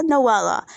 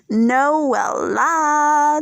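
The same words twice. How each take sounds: First: Said in the usual way. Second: Drawn-out name. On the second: Real, not acted. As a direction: savour NOELLA, holding each vowel very long. Savouring the next cast member's name.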